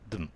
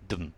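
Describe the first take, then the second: The two takes are said the same way.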